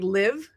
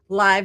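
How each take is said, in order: First: The vowel is short, rhyming with give. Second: The vowel is long, rhyming with jive. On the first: It names the verb for residing somewhere. The speaker calls it wrong. "saying it like live, like a, as in your residence" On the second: It names something happening in real time. The speaker calls it right. "That sounds like jive"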